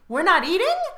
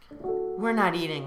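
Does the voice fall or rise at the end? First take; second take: rise; fall. First: It ends with a rising, question-like tune. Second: It ends with a falling, statement-like tune.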